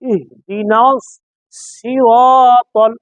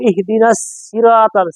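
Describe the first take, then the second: First: The s is said with rounded lips. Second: The s is said with unrounded lips. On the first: The speaker calls it right. "সদের ক্ষেত্রে ঠোঁট গোল হবে" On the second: The speaker calls it wrong. "সিন দেওয়া হয়"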